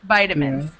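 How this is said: It is said in an American accent. "in American English, it's vitamins"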